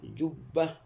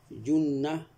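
First: "جبة" said jubba, b held; doubled b. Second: "جنة" said junna, n held; doubled n. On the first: Teacher contrasts both word pairs for student, jubba with b. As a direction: set "جبة" apart with a double b. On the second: Teacher contrasts both word pairs for student, junna with n. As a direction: set "جنة" apart with a double n. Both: Shown as a demonstration. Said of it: "كلاهما".

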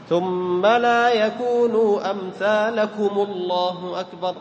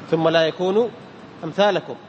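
First: Slow chanted recitation, أمثالكم joins الله as "amthalakumu-llah"; damma on meem. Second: Said in the usual way. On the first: Shown as a demonstration. Teacher demonstrates takbir link, damma on meem. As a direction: sing it drawn out with u after أمثالكم. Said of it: "بضم الميم". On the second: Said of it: "تحرك بالضم".

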